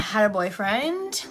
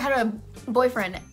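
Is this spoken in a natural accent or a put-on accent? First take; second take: put-on; natural. First: It is spoken in a put-on accent. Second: It is spoken in a natural accent.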